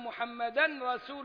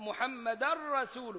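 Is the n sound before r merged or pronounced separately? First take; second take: separate; merged. First: The n sound is heard before the r. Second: The n sound merges fully into the r. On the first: The speaker calls it wrong. "ما ينفعش أقول" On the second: The speaker calls it right. "فيها إدغام كامل زي اللام"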